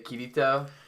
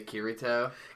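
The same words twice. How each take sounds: First: The R is a light tap, Japanese style. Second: The R is a full American English R. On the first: The speaker calls it right. "when I'm talking about Sword Art and I say Kirito" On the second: The speaker calls it wrong. "just saying R's how I normally say them"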